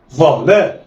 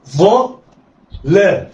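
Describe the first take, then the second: First: "ظا لا" joined in one quick go; snatch "ظا لا" with no pause; snatched together. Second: "ظا", pause, then "لا"; letters sounded apart. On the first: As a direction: blend "ظا لا" like one word. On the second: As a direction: say "ظا" and "لا" as separate syllables. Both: Shown as a demonstration. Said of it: "دي طريقة الخطف".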